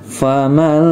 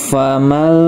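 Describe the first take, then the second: Both takes have the same delivery.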